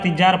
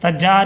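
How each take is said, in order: First: The first vowel is a short i. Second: The first vowel is a short a. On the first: "तज्जार या तिज्जार पढ़िएगा या तिजार पढ़िएगा तो गलत है" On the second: "तज्जार या तिज्जार पढ़िएगा या तिजार पढ़िएगा तो गलत है"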